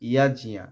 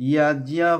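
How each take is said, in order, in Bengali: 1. শব্দটি 'y' দিয়ে শুরু হয় আর 'ajniya' দিয়ে শেষ হয়। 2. শব্দটি 'y' দিয়ে শুরু হয় আর 'ajniya' দিয়ে শেষ হয়।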